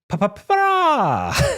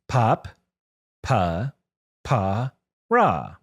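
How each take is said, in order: First: The syllables are run together quickly. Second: The syllables are spoken slowly and separately. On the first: "let me say my magic word" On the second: "say it slowly for me"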